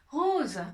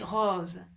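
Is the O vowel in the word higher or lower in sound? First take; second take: higher; lower. First: The O vowel sounds higher and brighter. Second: The O vowel sounds lower and deeper. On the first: The speaker calls it wrong. "On dit pas rose" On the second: The speaker calls it right. "on dit rose. C'est comme si la voix, elle descendait"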